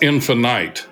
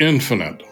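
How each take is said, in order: First: The word is said an unusual way to rhyme. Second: The word is said the ordinary way.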